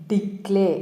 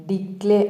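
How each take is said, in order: No difference in how they are said.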